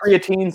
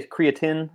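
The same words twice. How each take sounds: First: Long ee in the last syllable of creatine; alternative pronunciation. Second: Short i in the last syllable of creatine; alternative pronunciation. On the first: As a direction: say CREATINE ending in "teen". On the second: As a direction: say CREATINE ending in "tin". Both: Shown as a demonstration. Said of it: "there's not a pronunciation".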